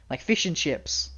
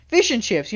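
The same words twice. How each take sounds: First: Said in the usual way. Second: A light British "Fish and chips," a bit higher and louder; playful mock British accent. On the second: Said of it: "you know, like British".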